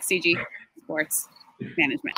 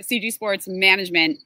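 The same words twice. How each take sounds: First: Slow, with a pause after each word; halting, over-careful company name; deliberately slow. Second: Said in the usual way. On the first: Shown as a demonstration. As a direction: spell it out slowly, piece by piece. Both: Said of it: "I say it so slowly now".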